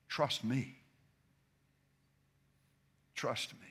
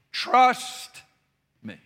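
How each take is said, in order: First: Trust me said much softer, almost under the breath; soft and intimate. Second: Trust punched high and loud, then me hit on its own; stress on each word. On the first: Preacher showing another way to say it, hushed and soft. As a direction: hush it down and let it land gently. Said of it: "And then you can say it this way". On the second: Preacher drilling the congregation, each word stressed. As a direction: lean hard on Trust and give me its own weight. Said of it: "Put the emphasis on the two different words". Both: Shown as a demonstration.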